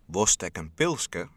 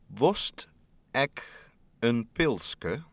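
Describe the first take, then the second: First: It is said at normal speed. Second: It is said very slowly.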